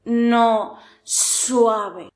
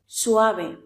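First: Suave with an overdone hissing S; exaggerated S. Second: Suave with a light, gentle S; soft S. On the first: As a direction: hiss the S of suave too hard. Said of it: "No intentes marcarlo en exceso". (suave con ese exagerada) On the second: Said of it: "la S es muy suave". (Suave con ese suave) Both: Shown as a demonstration.

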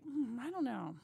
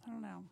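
First: Hesitant, mildly skeptical hum; doubtful musing. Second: Softer, trailing-off repeat of I don't know; fading doubt. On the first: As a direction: weigh him up, a touch unsure. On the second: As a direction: let the doubt sink away quietly. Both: Retold or imitated. Retold doubtful first impression.

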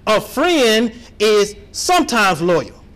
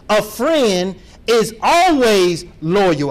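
First: "sometimes" read slow in disbelief. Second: "always" drawn out slow and stressed. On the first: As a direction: read "sometimes" as if it can't be true. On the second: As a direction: lean hard on "always". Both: Shown as a demonstration. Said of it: "I'm gonna read that again".

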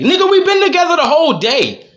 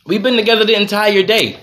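First: Exasperated retort. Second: Said in the usual way. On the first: Retold or imitated. Arguing with his wife over a bag.

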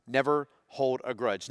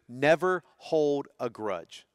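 First: Said in the usual way. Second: Never hold a grudge drawn out very slowly, never leaning in; slow emphatic rule. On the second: Shown as a demonstration. Pastor giving the family's second rule, very slow and weighty. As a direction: lay the second rule down word by word. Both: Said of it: "And number two".

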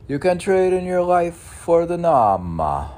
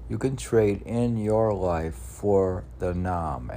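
First: Much higher, louder proclamation; proclaiming. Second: Said in the usual way. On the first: Acted. Announcing his saying to followers, high and loud. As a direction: ring it out like a sermon line. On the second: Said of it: "N A A M".

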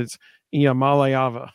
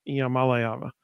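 First: Iamaleava with weight on ma and lay; careful pronunciation. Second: Iamaleava repeated softly, stress on ma and lay; softer repeat. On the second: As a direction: echo Iamaleava quietly, same stress. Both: Shown as a demonstration. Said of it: "the emphasis was on the ma and the lay".

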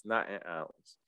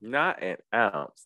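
First: Much softer repeat, almost under breath; quiet echo. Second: Slow, deliberate, weighing each word; slow emphatic. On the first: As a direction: drop it to a near-murmur. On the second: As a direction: drag it out for emphasis. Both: Shown as a demonstration.

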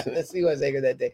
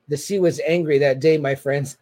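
First: Said in the usual way. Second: Lightly voiced George Costanza line; a hint of Costanza's dramatic delivery; quoting Costanza with mock gravity; Costanza impression.

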